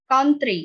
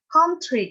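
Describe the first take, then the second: First: The t is a plain, light t. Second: The t has a breathy, aspirated release. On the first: "kalau misalnya American English kan country" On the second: "British English itu jadi kayak country"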